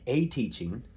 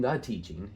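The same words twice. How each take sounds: First: A teaching with the word a lifted on a rise; stress on a. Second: The teaching with the word the lifted and rising; stress on the. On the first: Teacher correcting the translation, stressing a in a teaching. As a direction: lean on a in a teaching to set it against the. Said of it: "it's not saying the teaching". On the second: Teacher contrasting articles, stressing the in the teaching. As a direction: lean on the in the teaching, not the noun. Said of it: "It's saying, like, a teaching". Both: Shown as a demonstration.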